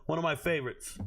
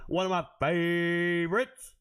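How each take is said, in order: First: Said in the usual way. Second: "favorites" held very long, rising in a put-on voice; exaggerated drawn-out word. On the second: Streamer hamming up a favorite pick, "favorites" stretched out absurdly. Same phrase repeated ever more stretched.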